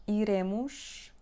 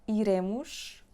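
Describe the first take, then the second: No difference in how they are said.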